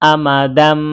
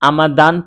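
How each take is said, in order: First: The word ends with an m sound. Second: The word ends with an n sound. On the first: The speaker calls it right. "উচ্চারণ হবে আমাদাম" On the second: The speaker calls it wrong. "আমাদান থেকে উচ্চারণ হবে"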